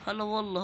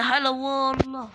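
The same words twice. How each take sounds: First: Said in the usual way. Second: Long, slow, mocking welcome; drawn-out hala wallah. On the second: Taunting an enemy player with a slow drawn-out greeting. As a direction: stretch the greeting out like a teasing host.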